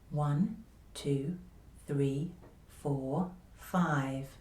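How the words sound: The voice is quiet, easy and gentle. The speaker calls it right. "confidential voice"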